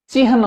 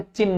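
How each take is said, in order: First: चिन्ह said chi-han, h before n; correct h before n. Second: चिन्ह said chinn, long n, no h sound; wrong doubled n. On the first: Teacher giving the exam form, चिन्ह said chi-han. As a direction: sound the h ahead of the n in चिन्ह. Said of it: "चिन्ह होता है". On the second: Teacher showing the exam mistake, चिन्ह said chinn. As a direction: drop the h and hold the n in चिन्ह. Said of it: "चिन्ह नहीं होता". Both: Shown as a demonstration.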